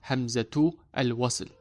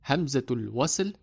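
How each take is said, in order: First: The 'a' of 'al' is kept, words separate. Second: The 'a' of 'al' is dropped, words linked. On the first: The speaker calls it wrong. "not Hamzatu al-wasl" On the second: The speaker calls it right. "we read it as Hamzatul wasl"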